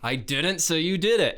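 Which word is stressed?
didn't. The stress is on the word didn't.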